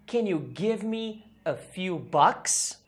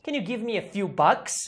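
First: Very slow, spaced-out teacher demonstration; careful, drawn-out example question; slow model sentence. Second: Said in the usual way. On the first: Shown as a demonstration. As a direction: give each word room for learners. Teacher models sentence slowly, then faster.

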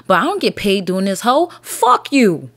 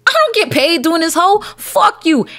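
First: Said in the usual way. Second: High, louder mock shout at commenters; escalating yell. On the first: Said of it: "rant at commenters". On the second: Shown as a demonstration. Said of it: "repeated louder, higher".

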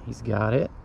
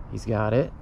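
The two takes are said the same way.

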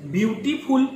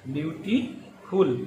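First: Said in the usual way. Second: beautiful drawn out slowly and softer; slow careful model. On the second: Shown as a demonstration. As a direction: stretch beautiful out for students to copy. (धीमे, साफ़ उच्चारण) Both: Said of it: "teacher models word pronunciation".

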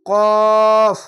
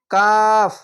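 First: কফ with long rounded aw, no aa; chant-like, drawn-out qawf; thick qaf. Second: কাফ with an open, held aa; drawn-out kaaf with aa; thin kaf. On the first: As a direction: hold a heavy, loud কফ. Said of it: "এখানে আকার উচ্চারণ". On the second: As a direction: stretch a light, open কাফ. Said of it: "এখানে আকার উচ্চারণ আছে". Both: Shown as a demonstration.

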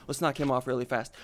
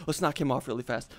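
No difference in how they are said.

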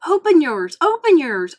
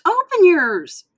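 First: Higher, loud eager cries; excited cry. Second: Higher, louder, slow final plea; drawn-out excited cry. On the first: Mater urging Lightning to open his gift, loud. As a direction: bounce with excitement and call it out. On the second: Mater's last eager plea to Lightning, slow and loud. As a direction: stretch the last one out, begging. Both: Acted. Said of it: "cried Mater".

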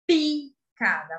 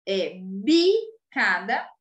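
First: "picada" said slowly, with a crisp puffed P at the start; voiceless P demo. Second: "bicada" said slowly, with a voiced B at the start; voiced B demo. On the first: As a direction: pop the P of "picada" against the B. ("picada" devagar, com o P surdo e estourado) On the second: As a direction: drag out "É bicada" and let the B buzz. ("bicada" bem devagar, com o B sonoro) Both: Shown as a demonstration. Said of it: "A pronúncia é diferente".

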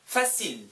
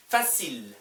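No difference in how they are said.

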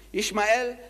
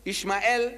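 First: Ishmael again as ish-ma-EL, ending on a rise; Ishmael, ish-ma-EL with a lift at the end; Hebrew-style Ishmael. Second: Ishmael said as ish-ma-EL, three syllables; Hebrew-style Ishmael. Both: Shown as a demonstration. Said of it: "that's how they say it".

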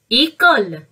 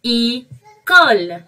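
First: Said in the usual way. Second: École stretched slowly, each sound drawn out; slow model word. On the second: Shown as a demonstration. Teacher modelling a French word for the kids, drawn out slowly. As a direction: draw École out slowly so kids can copy it. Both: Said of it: "it's mean école".

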